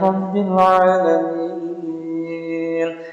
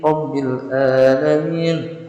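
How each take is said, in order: First: Alamin begins with a throaty pharyngeal ain sound. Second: Alamin begins with a plain glottal stop. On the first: The speaker calls it right. "yang seharusnya Rabbil alamin" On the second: The speaker calls it wrong. "ini dibaca Rabbil alamin ... bukan ain malah hamzah yang dibaca"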